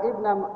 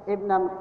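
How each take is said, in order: No difference in how they are said.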